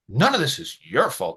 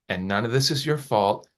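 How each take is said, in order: First: It is said in an angry, harsh tone. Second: It is said in a calm, even tone.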